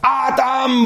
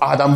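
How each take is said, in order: First: The name is called in a pained, sorrowful way. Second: The name is called in a casual, brisk way. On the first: The caller feels the pain of separation. The speaker calls it right. "das war ein schmerzlicher Ruf" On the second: The caller is just summoning someone offhandedly. The speaker calls it wrong. "Das war nicht so ein Ruf"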